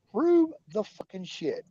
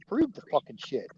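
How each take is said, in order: First: "Prove" drawn out with a rising pitch; slow, heated repeat of the demand; louder, slower insistence. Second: Said in the usual way. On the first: Real, not acted. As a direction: demand it again, harder.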